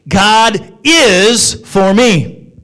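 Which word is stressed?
is. The stress falls on the word is.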